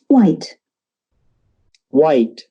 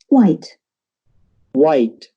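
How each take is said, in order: Both takes have the same delivery.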